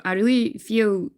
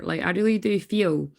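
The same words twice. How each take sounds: First: "really" leaned on, slower; slow down and press "really"; stress on really. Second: Said in the usual way. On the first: Shown as a demonstration. Tarot reader insisting to viewers, "really" stressed slowly. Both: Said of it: "when I say really do feel".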